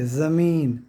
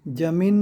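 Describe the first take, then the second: First: The word begins with a 'z' sound. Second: The word begins with a 'j' sound. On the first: The speaker calls it right. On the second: The speaker calls it wrong. "जमीन नहीं"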